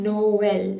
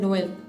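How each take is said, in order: First: The two vowels are said as separate syllables. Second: The two vowels are merged into one syllable. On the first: The speaker calls it right. "it generally separates the two vowels" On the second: The speaker calls it wrong. "It is not pronounced as"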